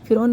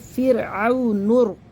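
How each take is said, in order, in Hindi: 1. दूसरे अक्षर में सादा 'o' स्वर है। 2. दूसरे अक्षर में पूरा 'au' स्वर है।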